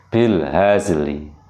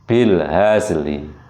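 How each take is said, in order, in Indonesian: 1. 'l' terakhir diikuti vokal samar setengah. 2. 'l' terakhir diikuti vokal samar setengah.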